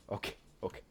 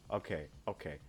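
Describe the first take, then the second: First: Breathless whisper under the breath; soft nervous whisper. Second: Said in the usual way. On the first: Real, not acted. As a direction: whisper it to yourself, tense. Nervous landing mutter.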